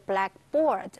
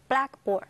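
First: The stress is on the second part, board. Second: The stress is on the first part, black. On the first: "那重音在第二个字。" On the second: The specific classroom board, of any color. "重音就要放在前面。"

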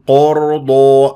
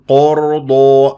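First: The word is said with rounded lips. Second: The same.

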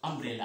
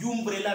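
First: The word begins with an 'uh' sound. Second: The word begins with a 'yoo' sound. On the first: The speaker calls it right. "ये अम्ब्रेला है" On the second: The speaker calls it wrong. "ये यू का उच्चारण यूम्ब्रेला नहीं है"

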